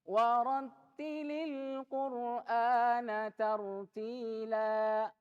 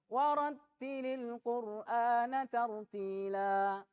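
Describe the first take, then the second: First: It is recited at a medium pace. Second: It is recited quickly. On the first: "ini mulai lebih cepat daripada at-tahqiq" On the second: "Kalau hadar cepat. Nah, ini kalau hadar"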